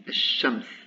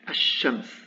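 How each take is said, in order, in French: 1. Le l est supprimé et le sh est doublé. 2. Le l est supprimé et le sh est doublé.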